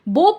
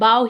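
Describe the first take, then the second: First: The vowel sounds like the one in 'go'. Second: The vowel sounds like the one in 'cow'. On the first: It has a different meaning. The speaker calls it wrong. "बो pronounce नहीं करेंगे" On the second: It means bending the head or body. The speaker calls it right. "B O W को हम बाव ही pronounce करेंगे"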